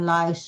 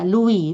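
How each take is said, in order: First: The name sounds like 'Lies'. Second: The name sounds like 'Louis'. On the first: It means a louse. The speaker calls it wrong. "bukan Lies dibaca" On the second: It is the boy's name. The speaker calls it right. "Louis bukan Lies"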